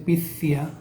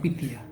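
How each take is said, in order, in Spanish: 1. La consonante del medio es un sonido parecido a th. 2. La consonante del medio es una t suave. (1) "no se dice picia" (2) "Una T muy suave"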